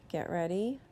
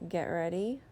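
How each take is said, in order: The two takes are said the same way.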